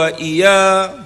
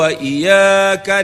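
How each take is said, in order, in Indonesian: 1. Bunyi y pendek dan tunggal. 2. Bunyi y ditahan dan didobelkan.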